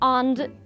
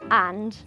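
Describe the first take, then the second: First: The vowel sounds rounded, like an 'o'. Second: The vowel sounds open, like an 'a'. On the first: The speaker calls it wrong. "sometimes I'm like ond" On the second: The speaker calls it right. "but it should be and"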